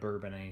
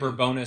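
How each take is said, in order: First: The name ends with an 'ay' sound. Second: The name ends with an 'us' sound. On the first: It names the village. "instead of Bourbonnais Street" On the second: It names the street in Kankakee. "you hear them say Bourbonus Street"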